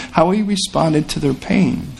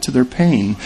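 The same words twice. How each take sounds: First: How he responded to their pain, slowed and pressed on each word; slow emphatic repeat. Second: Said in the usual way. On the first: Shown as a demonstration. Preacher repeating the point slowly for the congregation to sink in.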